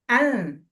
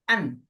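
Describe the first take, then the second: First: The n is softened, tongue not touching the ridge. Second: The n is fully closed, tongue touching the ridge. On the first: "lidahnya diturunin dikit supaya nggak nempel" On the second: "baca an dulu ya an ... nempel"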